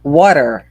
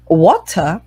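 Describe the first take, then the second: First: Water said as wa-der with a flapped t and an r, American style. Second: Water said with a clear t, British style; British water with a crisp t. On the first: Teacher shows the American water. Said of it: "Se vocês preferirem mais americanos". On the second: Teacher shows the British water. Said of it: "Como vocês preferirem". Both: Shown as a demonstration.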